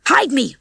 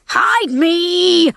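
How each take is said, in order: First: Higher, urgent plea; pleading. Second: High, loud, drawn-out yell. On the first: Rocky pleads with Ginger at the bell, urgent. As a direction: beg for cover. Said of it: "Rocky pleaded with Ginger". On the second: Rocky begs again as danger nears, yelling. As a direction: yell desperately for cover. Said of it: "Rocky yelled again". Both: A narrator's reading.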